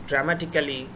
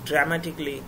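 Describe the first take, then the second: First: The ending is said as two syllables, 'cally'. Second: The ending is said as one syllable, 'cly'. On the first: The speaker calls it wrong. "এটা উচ্চারণ ভুল" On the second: The speaker calls it right. "এগুলোর উচ্চারণ হবে ক্লি"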